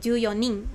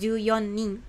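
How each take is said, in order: First: The four is said as yo, no n. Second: The four is said as yon, with n. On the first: The speaker calls it right. "tetap menjadi yo" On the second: The speaker calls it wrong.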